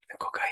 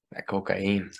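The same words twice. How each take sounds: First: Whispering that cocaine, mock secretive; a hushed dealer's whisper. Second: Said in the usual way. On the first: Repeating the hustler's line.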